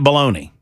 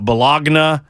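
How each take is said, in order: First: It is said the American way, like baloney. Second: It is said with an Italian-style pronunciation. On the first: This is how people in America say it. "that's how we do it in America" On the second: This is how people in that country say it. "in that country, you're going to pronounce it"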